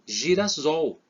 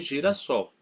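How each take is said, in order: First: The middle consonant is a z sound. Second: The middle consonant is an s sound. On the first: The speaker calls it wrong. "um S entre vogais, ele tem som de Z" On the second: The speaker calls it right. "para realmente ele ter o som de sol"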